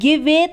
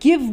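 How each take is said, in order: First: A vowel is sounded after the final v. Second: The word ends on the v sound. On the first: The speaker calls it wrong. "हम गिवे तो नहीं बोलते ना" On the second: The speaker calls it right. "हम गिव बोलते हैं"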